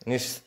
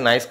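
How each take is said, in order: First: The vowel is a short 'ee' sound. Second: The vowel is a long 'eye' diphthong. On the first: The speaker calls it right. "এটা অ্যাকচুয়ালি নিস" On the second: The speaker calls it wrong. "উচ্চারণ অনেকে নাইস করতে পারে"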